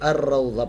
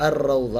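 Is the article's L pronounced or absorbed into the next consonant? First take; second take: absorbed; absorbed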